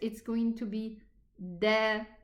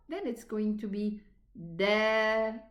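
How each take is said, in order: First: The vowel after the consonant is short. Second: The vowel after the consonant is long. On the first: "Without the, the elongating letters" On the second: "if an alif comes after the fatha"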